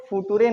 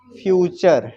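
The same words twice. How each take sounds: First: फुटूरे read letter by letter as foo-TOO-ray; mispronunciation demo. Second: फ्यूचर said as FYOO-cher, firm and louder; correct pronunciation. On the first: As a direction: sound out फुटूरे with a hard t and voiced final e. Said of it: "नहीं कहेंगे". (फुटूरे को अक्षर-अक्षर गलत पढ़ें, "ट" के साथ) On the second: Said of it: "इसको फुटूरे नहीं कहेंगे". (फ्यूचर में टी को "च" बोलें) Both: Shown as a demonstration.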